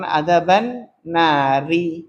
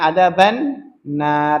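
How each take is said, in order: First: The last word ends with a final vowel. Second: The last word ends on a bare consonant. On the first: This is the original full form. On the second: This is the form used when stopping at the end.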